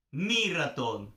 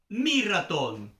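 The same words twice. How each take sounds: The two takes are said the same way.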